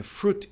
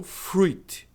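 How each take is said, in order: First: FRUIT as "froot"; correct pronunciation of fruit. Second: FRUIT as "froo-eet"; wrong pronunciation of fruit. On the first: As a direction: say "fruit" with only a U sound. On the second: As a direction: sound the i in "fruit". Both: Shown as a demonstration. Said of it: "É fruit e não fruit".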